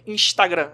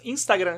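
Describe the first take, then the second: First: It is said with a carioca Rio accent. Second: It is said with a southern Brazilian accent.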